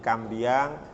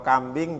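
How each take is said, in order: First: It is said with a final -iang sound. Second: It is said with a plain final -ing.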